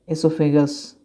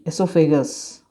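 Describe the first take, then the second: The two takes are said the same way.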